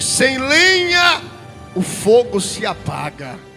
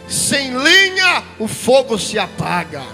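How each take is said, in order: First: The sentence is read very slowly. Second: The sentence is read at a normal pace.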